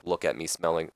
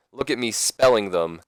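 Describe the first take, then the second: First: Said in the usual way. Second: "spelling" leaned on as a correction; stress on spelling. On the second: Real, not acted. Speaker fixes his slip, "spelling" stressed firmly. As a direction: hit "spelling" harder than the words round it.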